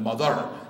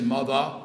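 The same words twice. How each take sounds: First: The final R is clearly pronounced. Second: The final R is dropped, Brooklyn style. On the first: "rather than mother" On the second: "we say mother"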